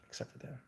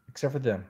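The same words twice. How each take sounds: First: "Except for them." whispered as a sly aside. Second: Said in the usual way. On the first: Real, not acted. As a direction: whisper it like a secret jab.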